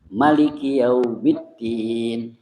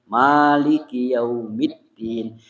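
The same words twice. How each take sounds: First: The first vowel of maliki is kept short. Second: The first vowel of maliki is held long. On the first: This is the reading for the second prayer cycle. "maliki dibaca pendek bihasbiha dengan membuang alif" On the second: This is the reading for the first prayer cycle. "dengan menggunakan alif"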